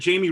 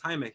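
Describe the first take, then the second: First: The name is said the English way. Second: The name is said the Spanish way. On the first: Someone else said it this way. The speaker calls it wrong. "somebody said Jamie Reyes on this other YouTube thing" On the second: This is how the name should be said. The speaker calls it right. "no, it's Jaime. He's Mexican, bro. Pronounce it correctly"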